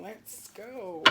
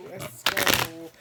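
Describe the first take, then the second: First: Hushed breathy let's go; whispered. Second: Loud. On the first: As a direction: breathe it out softly. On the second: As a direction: punch it out loud. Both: Real, not acted. Repeated hype call, soft then loud.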